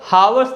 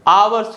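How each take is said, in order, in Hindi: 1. शब्द की शुरुआत h ध्वनि से होती है। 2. शब्द की शुरुआत स्वर ध्वनि से होती है। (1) "हावर्स नहीं होता है" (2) "आवर्स होता है। इसमें भी जो लेटर एच है यह साइलेंट है।"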